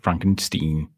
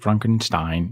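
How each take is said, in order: First: The last syllable sounds like 'steen'. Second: The last syllable sounds like 'stine'. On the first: The speaker calls it wrong. "not Frankenstein" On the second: The speaker calls it right. "Same with Frankenstein"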